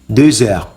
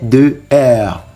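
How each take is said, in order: First: The two words are joined with a linking sound. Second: The two words are said separately without linking. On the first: The speaker calls it right. "We would have to link deux and heure, so it becomes" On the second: The speaker calls it wrong. "we could have said something like"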